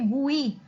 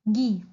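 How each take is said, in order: First: The u is sounded, giving 'gu-i'. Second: The u is silent, giving 'gi'. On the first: The speaker calls it wrong. "इसको पढ़ते गुई, which is wrong" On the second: The speaker calls it right. "आई और जी का sound create होगा which is गी"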